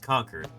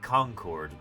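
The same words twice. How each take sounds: First: It uses the local pronunciation. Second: It uses a non-local pronunciation. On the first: This is how residents say the name. The speaker calls it right. "It's pronounced Concord" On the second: This is how outsiders might say the name. The speaker calls it wrong. "Not like Concord. No, not like that"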